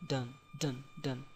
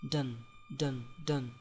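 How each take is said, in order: No difference in how they are said.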